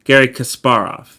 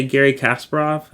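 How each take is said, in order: First: Kasparov as kəs-PAR-of, stress on the middle syllable; Russian pronunciation. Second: Kasparov said the English way, KAS-per-ov, stress on the first syllable; old wrong pronunciation. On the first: Teacher corrects the name to its Russian pronunciation. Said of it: "how to say it in the Russian pronunciation". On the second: Teacher admits how he used to say the name, English-style pronunciation. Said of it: "and I know that's not right". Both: Shown as a demonstration.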